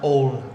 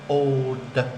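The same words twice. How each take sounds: First: The final d sound is dropped. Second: The final d sound is clearly pronounced. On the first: The speaker calls it wrong. "Or it will sound like old" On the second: The speaker calls it right. "Remember to the"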